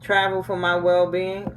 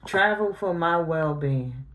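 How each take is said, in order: First: "Travel for my well-being?" with a rising, doubtful tone; mocking question; incredulous question. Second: Slowed, deliberate "Travel for my well-being."; slow, sceptical restatement; slow flat repeat. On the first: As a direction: read it as if you can't believe it. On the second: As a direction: weigh each word of it. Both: Shown as a demonstration.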